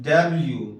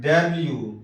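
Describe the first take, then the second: Both takes have the same delivery.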